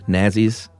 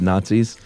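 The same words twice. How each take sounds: First: The word has an old-fashioned pronunciation. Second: The word has a modern everyday pronunciation. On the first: "he says Nazis instead of Nazis" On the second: "instead of Nazis"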